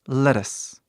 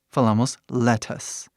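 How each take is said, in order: First: It is said quickly with a tapped r sound. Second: It is said slowly with a clear t sound. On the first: "quando falamos rápido, nós falamos lettuce. Ele fica um R do português" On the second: "quando falamos devagar, falamos lettuce"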